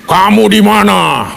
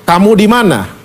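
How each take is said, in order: First: Drawn-out, booming monster-like roll call; menacing dinosaur-like God. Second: God's mild searching question; searching, not angry. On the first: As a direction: stretch every vowel like a dinosaur stalking in. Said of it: "itu sama persis kayak dinosaurus masuk di Jurassic Park". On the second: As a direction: ask without anger, looking for someone lost. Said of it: "Dia mencari". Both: Retold or imitated.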